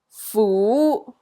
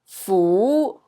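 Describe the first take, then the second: First: The syllable is said in Cantonese tone two. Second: The same.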